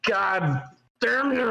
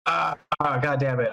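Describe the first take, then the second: First: Slow, high-pitched mock-intense swearing; exaggerated, stretched-out exasperation; more intense curse. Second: Said in the usual way. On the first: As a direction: draw the curse out with hammed-up force. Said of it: "that's way more intense". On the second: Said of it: "like, knee jerk of".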